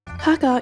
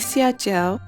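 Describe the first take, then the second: First: The word is pronounced the Cantonese way. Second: The word is pronounced the Mandarin way. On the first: "Ha gao is the Cantonese pronunciation" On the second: "The Chinese one would be xia jiao, but I never really use the Mandarin pronunciation"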